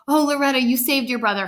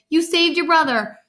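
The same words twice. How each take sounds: First: Said in the usual way. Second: "saved" lifted high, then falling; higher emphatic repeat with "saved" as the peak; stress on saved. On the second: A narrator's reading. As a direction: echo it impressed, punching "saved". Father echoes with more emphasis.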